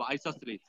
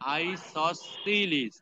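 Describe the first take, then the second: First: The word is said quickly. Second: The word is said slowly and carefully. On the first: "তারপরে তাড়াতাড়ি বলবো" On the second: "আমরা আগে আস্তে করে করে নিব প্রোনাউন্সিয়েশনটা।"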